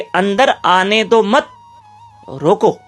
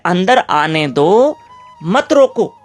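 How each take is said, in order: First: The pause falls after 'मत'. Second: The pause falls after 'दो'.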